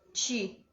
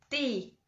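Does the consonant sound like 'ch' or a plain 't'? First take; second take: ch; plain t. First: The t is softened to a 'ch' sound. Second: The t is a plain, crisp 't' sound. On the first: The speaker calls it wrong. "como aqui no Pará e no Rio de Janeiro" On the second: The speaker calls it right. "o povo fala mais assim"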